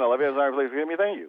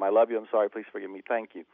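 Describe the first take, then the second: First: It is said very fast. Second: It is said at a normal pace.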